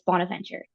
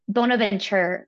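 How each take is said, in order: First: The name is given a plain, ordinary pronunciation. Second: The name is given a fancy, foreign-style pronunciation. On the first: The speaker calls it right. "but it's Bonaventure" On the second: The speaker calls it wrong. "I always want to say like Saint, like Bonaventure or something... I try to get fancy with it"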